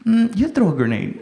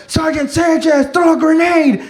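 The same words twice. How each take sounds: First: Unshouted, hesitant comeback; reluctant refusal. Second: High-pitched yelled order; imitated combat call. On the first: Retold or imitated. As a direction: push the order back at them, unwilling. Reluctant answer to shouted order. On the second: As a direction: call an order to a sergeant in a firefight. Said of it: "somebody calling me to throw a grenade".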